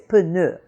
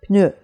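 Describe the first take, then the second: First: The P is said as its own syllable. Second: The P is joined directly to the N. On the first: The speaker calls it wrong. "English speakers have a tendency to make it into another syllable" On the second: The speaker calls it right. "You have to kind of join the P and the N together there"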